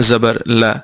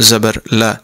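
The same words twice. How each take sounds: Both takes have the same delivery.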